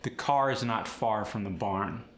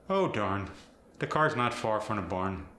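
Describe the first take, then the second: First: Said in the usual way. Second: Fargo accent with hard R; Minnesotan, lean hard on the R. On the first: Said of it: "For instance". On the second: Shown as a demonstration. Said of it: "the R becomes harder".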